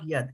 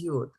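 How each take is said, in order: First: The vowel is an open 'a' sound. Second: The vowel is an 'o' sound. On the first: The speaker calls it wrong. "now it is not yad" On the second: The speaker calls it right. "it is yod, right? It is a O here"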